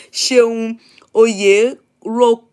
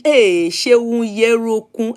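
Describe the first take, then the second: First: Slow, careful first try at "Ṣeun Oyerokun", syllable by syllable; hesitant reading of a hard name; sounding out a name. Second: "Ṣeun Yerokun" said slowly, the "Oye" run together as "Ye"; retry "Ṣeun Yerokun", a little more sure of it; careful corrected reading; second try at a name. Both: Real, not acted. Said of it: "your name is hard".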